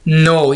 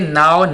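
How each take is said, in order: First: The vowel sounds like the one in 'go'. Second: The vowel sounds like the one in 'how'. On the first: The speaker calls it right. "इसको हम pronounce कैसे करेंगे? नो" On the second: The speaker calls it wrong. "ये नाउ नहीं होगा"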